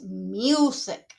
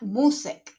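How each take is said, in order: First: The u is a 'yoo' sound, like the letter. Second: The u is a plain 'oo' sound. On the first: The speaker calls it right. "it is music" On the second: The speaker calls it wrong. "It is not music"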